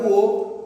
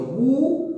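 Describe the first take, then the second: First: Said in the usual way. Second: "Búho" as two separate beats, bú... o; split into syllables. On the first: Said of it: "de alguna manera se subdivide". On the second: Shown as a demonstration. Teacher showing how the word subdivides, "Búho" split in syllables. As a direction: stretch the ú of "Búho" high, then a separate o. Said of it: "La palabra búho es así".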